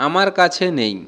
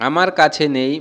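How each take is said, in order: Both takes have the same delivery.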